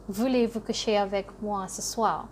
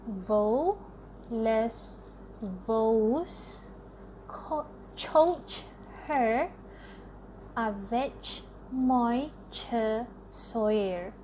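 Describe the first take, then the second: First: It is said with French pronunciation. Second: Every letter is sounded out as Malay spelling. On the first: "what French words do I know?" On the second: "if voulez-vous coucher avec moi were to be pronounced the Malay way"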